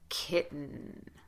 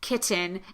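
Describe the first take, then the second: First: The T is stopped and the N is held long. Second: The middle consonant is a clearly released T. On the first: "Stop the T, shorten the vowel, sustain the N" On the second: "Do if you're going to do anything, put a T"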